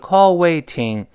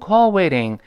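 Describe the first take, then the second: First: The t in waiting is a clear voiceless sound. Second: The t in waiting is voiced and softened. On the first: "本来应该是call waiting" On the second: "读快之后很自然的浊化成call waiting"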